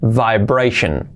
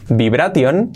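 First: "vibration" as vai-BREI-shen; slow "vibration", vai first; correct pronunciation. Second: "Vibration" as rising bi-bra-TION; b and hard t in "Vibration"; wrong Spanish reading. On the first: Teacher models for learners: "vibration" as vai-BREI-shen. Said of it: "Es vibration". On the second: Teacher reads the spelling: "Vibration" as bi-bra-tion. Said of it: "primera palabra es complicada". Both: Shown as a demonstration.

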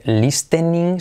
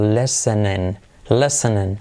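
First: "listening" with a clearly sounded T; T pronounced, wrong. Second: "listening" as "lesenen", no T at all; silent T. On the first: Teacher showing what not to say, "listening" with the T sounded. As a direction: say "listening" as spelled, "lis-te-ning". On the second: Teacher showing the correct way, "listening" with silent T. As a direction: drop the T in "listening", open the I to E. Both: Shown as a demonstration. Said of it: "La T no se pronuncia".

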